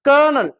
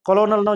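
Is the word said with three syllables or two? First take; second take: two; three. First: The word is said with two syllables, ker-nel. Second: The word is said with three syllables, ko-lo-nel. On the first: The speaker calls it right. "கர்னல் ரெண்டே syllable தான் இது" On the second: The speaker calls it wrong. "எழுதுறது ஒரு மாதிரி"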